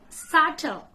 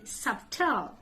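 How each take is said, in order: First: "Subtle" as SUT-ul, higher and louder; silent B. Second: "Subtle" with the B sounded, SUB-tul; mispronunciation. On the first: Teacher corrects learners, "Subtle" with silent B. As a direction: drop the B from "Subtle". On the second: Teacher shows what not to say, "Subtle" with B. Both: Shown as a demonstration. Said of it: "Don't say B".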